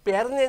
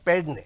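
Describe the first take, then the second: First: The name is said with an 'r', as Pernem. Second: The name is said with a 'd', as Pedne. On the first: The speaker calls it wrong. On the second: The speaker calls it right.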